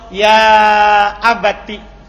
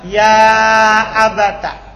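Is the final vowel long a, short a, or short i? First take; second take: short i; short a. First: The word ends in a short i vowel. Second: The word ends in a short a vowel. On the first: This is the reading of most of the seven readers. "dengan diganti ya-nya menjadi ta yang dikasra" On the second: This is the reading of one particular reader. "Di fathah"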